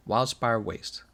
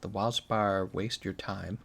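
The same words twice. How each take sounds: First: Said in the usual way. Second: Wildspire dragged out slowly as a joke; slow mocking pun. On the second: Shown as a demonstration. Streamer mocking the area name, slow pun.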